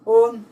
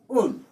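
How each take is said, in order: First: The pitch falls on the vowel. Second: The pitch rises on the vowel. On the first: "then used as falling tone" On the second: "Un is rising tone"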